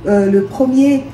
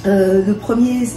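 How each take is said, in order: Both takes have the same delivery.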